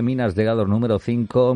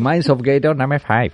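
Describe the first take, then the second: First: It is said in a plain Spanish accent. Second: It is said in an American English accent.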